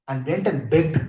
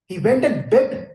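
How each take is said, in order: First: Said in the usual way. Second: "He went and begged" said higher, slower and louder, leaning on "went"; slow down and hit "went" hard; stress on went and begged. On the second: Shown as a demonstration.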